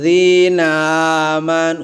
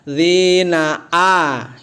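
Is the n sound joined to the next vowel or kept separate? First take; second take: joined; separate. First: The n is joined onto the following vowel. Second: The n is finished before the next vowel. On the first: The speaker calls it wrong. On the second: The speaker calls it right. "itu yang benar"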